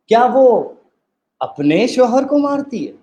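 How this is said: The stress falls on the word अपने. "अब हम तीसरी दफ़ा में एम्फसाइज़ करेंगे।"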